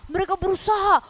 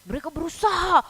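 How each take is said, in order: Both takes have the same delivery.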